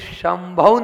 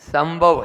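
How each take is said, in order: First: The word begins with an 'sh' sound. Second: The word begins with an 's' sound. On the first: The speaker calls it right. "ये शंकर वाला श है ये" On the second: The speaker calls it wrong. "बोलते हम सब संभव है, पॉसिबल वो नहीं है"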